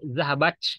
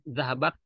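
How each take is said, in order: First: The word ends in a ch sound. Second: The word ends in an airy t sound. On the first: The speaker calls it wrong. "Bukan C ya, bukan zahabach" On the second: The speaker calls it right. "harus dibuang"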